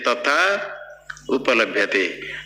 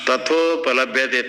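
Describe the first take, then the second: First: The two words are said separately. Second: The two words are merged into one. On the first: The speaker calls it wrong. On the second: The speaker calls it right.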